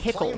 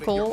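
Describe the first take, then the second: First: The H sound in the middle is strongly hit. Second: The H sound in the middle is light. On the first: "Like you really hitch on the H" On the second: "instead of saying vehicle"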